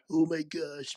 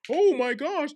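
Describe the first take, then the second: First: It is said in a put-on perverted man voice. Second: It is said in the speaker's normal voice.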